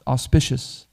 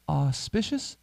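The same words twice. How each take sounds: First: Said in the usual way. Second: "Auspicious" echoed back softly with a questioning rise. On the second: Retold or imitated. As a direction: repeat "Auspicious" as a puzzled question, voice rising at the end. Salesman echoes the word back questioningly.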